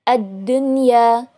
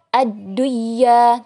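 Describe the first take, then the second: First: The n is pronounced clearly before the y. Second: The n merges into the following y sound. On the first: The speaker calls it right. "dibacanya tetap idhar" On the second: The speaker calls it wrong. "Tidak dibaca ad-dunya, tidak"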